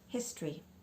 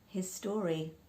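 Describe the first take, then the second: First: The second syllable is short and reduced. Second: The second syllable is a full 'story'. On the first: The speaker calls it right. "it's not his story, it's history" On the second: The speaker calls it wrong. "pronounce the second syllable as story"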